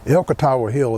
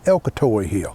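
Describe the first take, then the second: First: The name ends with an 'awa' sound. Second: The name ends with an 'oy' sound. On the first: This is the standard form of the name. "which would always be the official" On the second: This is how people in the area say it. "which locally is Elkatoy"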